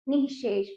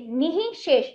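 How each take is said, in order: First: The word is said joined as one unit. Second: The word is split into two separate parts. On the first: "अब जोड़कर पढ़ेंगे तो निशेष" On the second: "हमने निहि शेष तोड़कर पढ़ा"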